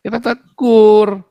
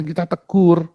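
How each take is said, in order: First: "kita tegur" higher, louder and drawn out slowly; emphatic repeat. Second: Said in the usual way. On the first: Real, not acted. Preacher driving home that they rebuke, slow and loud. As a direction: lean hard on "tegur", stretch each syllable. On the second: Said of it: "Ah, kita tegur".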